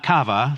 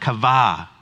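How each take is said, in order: First: It is pronounced like an English restaurant name. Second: It is pronounced as the Hebrew word. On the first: It names a salad restaurant. The speaker calls it wrong. "Not kava, like the salad place" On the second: It names the Hebrew word for waiting. The speaker calls it right. "but kava"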